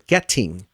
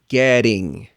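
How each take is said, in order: First: The middle T is a hard, forced T. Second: The middle T is a light flap, like D. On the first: It sounds like a foreign speaker. The speaker calls it wrong. "it sounds like a foreign speaker... because the T, I'm forcing it" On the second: It sounds like a native speaker. The speaker calls it right. "Into a flap T sound"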